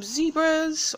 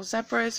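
First: "zebras" said ZEE-bruhz; first syllable of "zebras" rhymes with "see"; long-E zebras. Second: "zebras" said ZEB-ruhz; first syllable of "zebras" rhymes with "web"; short-E zebras. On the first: Vlogger offering one way to say zebras, "zebras" with long E. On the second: Vlogger offering the other way to say zebras, "zebras" with short E. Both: Shown as a demonstration. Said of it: "however you say it".

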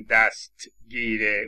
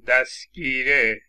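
First: "دستگیره" as dast-gire, with a separate t; t fully pronounced. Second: "دستگیره" said as dasgire, with no t; t dropped. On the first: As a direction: release the t in "دستگیره" before the g. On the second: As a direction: skip the t in "دستگیره", s straight into g. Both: Shown as a demonstration.

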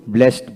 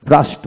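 First: ব্লেসড with front "e", "blest"; rejected pronunciation. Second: ব্রাস্ট with open "aa", as in "blaast"; preferred pronunciation. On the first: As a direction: say ব্লেসড as "blaest". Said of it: "ব্লেসড বলি না". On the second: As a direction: say ব্রাস্ট with a long "ah". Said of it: "ব্রাস্ট বলি". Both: Shown as a demonstration.

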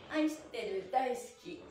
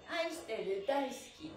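Both takes have the same delivery.

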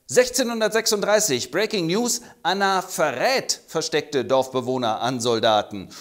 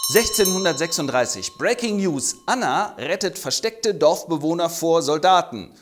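First: Mock news anchor correction; corrected news flash. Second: Higher, punchy newsreader announcement; hammed-up news anchor; breaking news flash. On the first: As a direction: correct the headline deadpan. Fake News und es heißt in Wahrheit. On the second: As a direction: sell it like a breaking headline.

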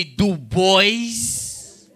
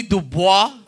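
First: Put-on "Du Bois" said as "doo boys"; mispronounced name. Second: Said in the usual way. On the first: Shown as a demonstration. Comic quoting people who get his name wrong, "Du Bois" mispronounced as "doo boys". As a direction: stretch "Du Bois" into doo-BOYZ, sounding the final s. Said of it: "when people mispronounce my name, call me Du Bois". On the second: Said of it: "I hate when people mispronounce my name".

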